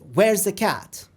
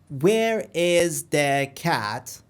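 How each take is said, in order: First: The words run together in natural rhythm. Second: Each word is separated and equally stressed. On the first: The speaker calls it right. "the real conversation" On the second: The speaker calls it wrong. "Every word um, separated uh, equally stressed"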